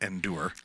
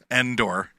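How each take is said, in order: First: The second syllable sounds like 'dure'. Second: The second syllable sounds like 'door'. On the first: The speaker calls it wrong. "not Endure" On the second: The speaker calls it right. "I corrected myself"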